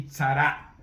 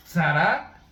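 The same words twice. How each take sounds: First: Tzara opening on a crisp TS, loud; Tzara, loud and deliberate, TS at the start; Hebrew pronunciation. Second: Zara with a plain initial S sound, loud; Zara, loud and deliberate, no T before the S; Hebrew pronunciation. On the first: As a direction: say Tzara slowly with a T fused to the S. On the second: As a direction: say Zara slowly, starting on a simple S. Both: Shown as a demonstration. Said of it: "así se pronuncian en hebreo".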